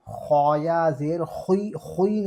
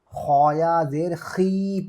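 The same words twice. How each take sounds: First: खुई with a full, rounded heavy kh; wrong heavy खुई. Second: खी with a thin kh and long ee; correct thin खी. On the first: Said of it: "नहीं पढ़ेंगे". (खुई को पुर (भारी) आवाज़ में) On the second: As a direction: keep खी fine, no w-glide. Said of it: "पढ़ेंगे". (खी को बारीक और लंबा पढ़ना) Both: Shown as a demonstration.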